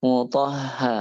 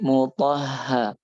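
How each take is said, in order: The two takes are said the same way.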